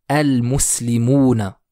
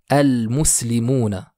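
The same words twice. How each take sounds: No difference in how they are said.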